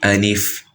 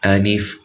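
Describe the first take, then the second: First: The L carries a full clear i vowel. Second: The same.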